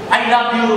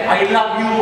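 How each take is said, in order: First: It is said with heavy, pressed emphasis. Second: It is said plainly, without extra emphasis. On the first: "Pag kami yung diin na ano na kanya, ibig kami kaaway mo yan" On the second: "hindi lang kasi"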